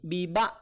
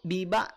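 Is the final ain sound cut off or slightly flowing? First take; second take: cut off; cut off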